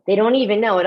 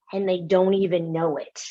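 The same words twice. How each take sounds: First: "even" pressed harder, the line louder; emphatic repeat. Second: Said in the usual way. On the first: Shown as a demonstration. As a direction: hit "even" to drive the point home.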